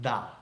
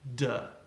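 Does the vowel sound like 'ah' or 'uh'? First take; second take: ah; uh. First: The vowel is an open 'ah'. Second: The vowel is a short, relaxed 'uh'. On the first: The speaker calls it wrong. "not da" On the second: The speaker calls it right. "that spelling is still pronounced in English, duh"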